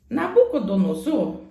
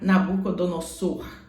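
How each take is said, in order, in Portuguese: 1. A consoante antes da última sílaba soa como Z. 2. A consoante antes da última sílaba soa como S. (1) "Se o S está entre duas vogais, ele tem som de Z" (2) "Você não pode falar"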